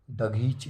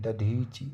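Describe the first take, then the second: First: दघीच with gh in the middle; wrong form. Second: दधीच with dh in the middle; correct form. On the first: Teacher reading the error, दघीच with gh. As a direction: say दघीच as da-ghee-chi. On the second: Teacher giving the correction, दधीच with dh. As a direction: say दधीच as da-dhee-chi. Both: Shown as a demonstration. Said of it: "दघीच नहीं".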